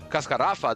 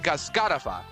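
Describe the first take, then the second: First: The stress is on the third syllable. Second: The stress is on the second syllable. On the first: Written Spanish would need no accent mark. "doesn't have an accent because the second last syllable" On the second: Written Spanish would need an accent mark. "the accent on the A on the second syllable of the word"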